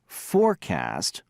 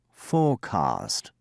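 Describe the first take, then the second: First: Forecast with a clear R and flat a, slowly; American forecast. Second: Forecast with no R and a broad ah, slowly; British forecast. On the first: Teacher replaying American Forecast, slow with a clear R. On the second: Teacher replaying British forecast, slow, no R. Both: Shown as a demonstration. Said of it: "Listen again".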